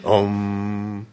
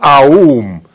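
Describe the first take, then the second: First: The vowel is a single o sound. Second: The vowel glides from a through u. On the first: The speaker calls it right. "Вы должны сказать ом" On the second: The speaker calls it wrong. "вы не скажете аум"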